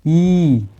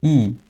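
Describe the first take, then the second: First: ई stretched out; long vowel. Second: ई said short; short vowel. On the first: Teacher gives long vowel examples, sustained ई. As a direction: hold ई for two beats. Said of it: "ज़्यादा समय लग रहा है". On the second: Teacher lists short vowels, brief ई. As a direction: give ई one quick beat. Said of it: "यानी कम समय लगे". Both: Shown as a demonstration.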